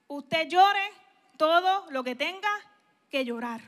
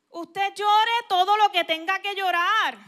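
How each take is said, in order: First: Said in the usual way. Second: "Usted llore todo lo que tenga que llorar" said louder and firmer; louder emphatic restatement. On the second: Shown as a demonstration. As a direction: drive the command home, louder.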